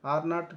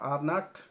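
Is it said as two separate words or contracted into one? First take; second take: two words; two words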